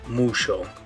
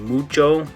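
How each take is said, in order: First: The consonant is a sh sound. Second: The consonant is a ch sound. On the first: "they might say that like mucho" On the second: "instead of saying mucho"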